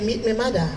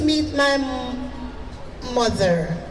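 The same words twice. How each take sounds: First: The final er sound is dropped. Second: The final er sound is clearly pronounced. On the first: "we don't say the E R sound" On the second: "you will not hear somebody say"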